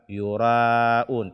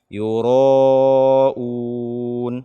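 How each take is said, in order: First: The ra is pronounced light and thin. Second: The ra is pronounced heavy and thick. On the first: The speaker calls it wrong. "membaca ro fathah dengan tipis" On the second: The speaker calls it right. "tapi baca dengan"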